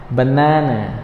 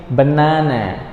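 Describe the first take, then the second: No difference in how they are said.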